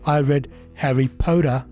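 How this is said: The t in Potter sounds like an r. "ये American है।"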